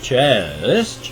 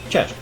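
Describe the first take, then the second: First: The word is said slowly and drawn out. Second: The word is said quickly and short. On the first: The speaker calls it wrong. "so not Chest" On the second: The speaker calls it right. "something you say quick, fast"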